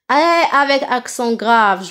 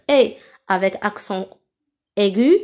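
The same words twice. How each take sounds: First: "et" as a long open è. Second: Name "et" with a barely open mouth; closed é. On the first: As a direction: open the mouth wide on "et". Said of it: "j'ouvre ma bouche". (« et » prononcé è ouvert) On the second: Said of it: "c'est ça la différence". (« et » prononcé é fermé) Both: Shown as a demonstration.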